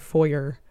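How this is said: It is said the American way.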